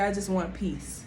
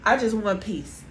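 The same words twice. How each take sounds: First: The voice sounds calm and even. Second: The voice sounds tense and agitated. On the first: The speaker sincerely wants peace. The speaker calls it right. "using a calm tone" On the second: The delivery contradicts the wish for peace. The speaker calls it wrong. "Your tone, your hands, your face, your energy is saying the complete opposite"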